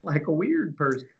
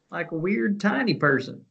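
First: Higher-pitched teasing echo; playful echo. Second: High, silly little voice; tiny person voice. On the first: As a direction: echo it in a silly raised voice. Playful high echo of friend's phrase. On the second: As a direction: squeak it up playfully for a tiny person. Sillier, higher echo adding tiny. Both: Pretend.

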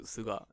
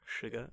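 First: Suga said soo-gah, no r; Suga, Japanese soo-gah; correct Japanese name. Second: Sugar said shoo-ger like the sweetener; Sugar, English shoo-ger; jokey English Sugar. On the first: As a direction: Suga as soo-gah, both vowels open. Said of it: "Isn't it pronounced Suga". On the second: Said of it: "you can sound like an old Southern Dane". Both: Shown as a demonstration.

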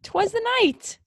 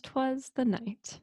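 First: Very high, put-on voice; high-pitched title echo. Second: Soft, slow, higher-pitched title reading; hushed title sign-off. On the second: Acted. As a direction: announce the title softly and slowly. First take of title sign-off.

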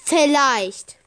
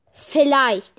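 First: Vielleicht drawn out, louder, falling at the end; stress on vielleicht. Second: Vielleicht punched louder, with a falling tune; stress on vielleicht. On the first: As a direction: lean heavily on vielleicht. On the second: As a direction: hit vielleicht hard and let it drop. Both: Shown as a demonstration. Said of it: "ich betone".

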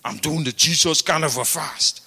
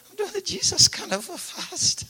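First: A lightly put-on voice for Fire, a bit lower; mild caricature of a stubborn faster; Fire's way of talking. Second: Much higher, thin faint voice of a starving man; high, fading voice of a man near death from fasting; feeble dying man. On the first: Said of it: "he talks like this". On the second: Retold or imitated. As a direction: croak it out as if at death's door. Weak dying Fire answers.

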